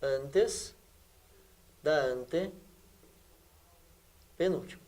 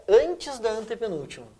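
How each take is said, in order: First: Slow, low and soft, with long gaps; quiet dictation pace, as if writing it out; piece by piece. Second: Said in the usual way. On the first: Shown as a demonstration. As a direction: break up ANTES / DA ANTE / PENÚLTIMA, very slowly. Teacher repeats phrase piece by piece.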